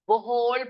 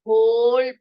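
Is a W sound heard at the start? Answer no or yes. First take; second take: yes; no. First: The word starts with a W sound. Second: The word starts without a W sound. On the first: The speaker calls it wrong. "वो होल पढ़ेंगे ... नहीं पढ़ सकते आप इसको" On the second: The speaker calls it right. "डब्ल्यू को silent करते हुए हम इसको होल पढ़ेंगे"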